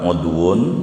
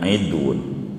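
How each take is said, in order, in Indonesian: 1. Vokal pertama adalah bunyi u. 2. Vokal pertama adalah bunyi i. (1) "dibaca dhammah ainnya u" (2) "dibaca kasrah ainnya idwun"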